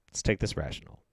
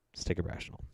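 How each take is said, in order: First: Quiet, low self-soothing; calming himself, softly. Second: Whispered calm. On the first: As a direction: talk yourself down gently. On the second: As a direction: whisper it to yourself. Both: Real, not acted. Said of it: "Let's calm down".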